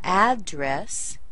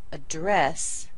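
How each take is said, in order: First: "address" slow, with a strong AD; noun stress. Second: "address" as uh-DRESS, weight on the end; verb stress. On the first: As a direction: punch the first syllable of "address". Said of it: "stress the first syllable". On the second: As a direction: punch the second syllable of "address" after a tiny schwa. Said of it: "put it on the second syllable". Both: Shown as a demonstration.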